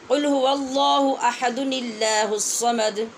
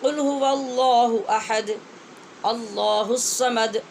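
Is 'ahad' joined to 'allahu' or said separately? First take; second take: joined; separate. First: Ahad runs into allahu through a linking -nil- sound. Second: Ahad ends, then allahu starts fresh with a glottal catch. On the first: "इस तरह से हम इनको पढ़ेंगे मिलाकर" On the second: "मिलाना नहीं तो"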